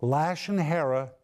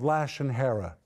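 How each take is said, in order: First: A measured, careful restatement of Lashon Hara; deliberate repeat. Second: Rushed first mention. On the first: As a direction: set Lashon Hara apart so listeners catch it. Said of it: "please listen to this". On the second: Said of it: "Lashon Hara, please listen to this". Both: Shown as a demonstration.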